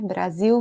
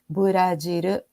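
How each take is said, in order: First: It begins with a consonant cluster 'br'. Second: Vowels are inserted, with a Japanese-style ending. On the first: "Brasil vira Buradir" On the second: "vira Buradir"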